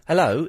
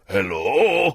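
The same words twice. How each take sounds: First: It is said in a natural, normal voice. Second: It is said in a put-on, altered voice. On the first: The caller doesn't yet realise they are on air. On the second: The caller realises they are on air and pretends.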